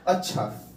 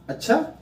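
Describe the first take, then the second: First: It is said as a plain, neutral statement. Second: It is said as a sudden, surprised exclamation. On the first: An ordinary acknowledgement. "सामान्य कथन है" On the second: Something unexpected has just been learned. "अचानक सा क्या कहेगा?"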